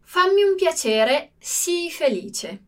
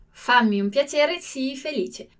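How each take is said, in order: First: Slow model reading. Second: Said in the usual way. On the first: Shown as a demonstration. Teacher reading an example sentence to students, slow and deliberate. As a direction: read it out slowly for the class to copy. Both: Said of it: "vediamo il nostro prossimo esempio".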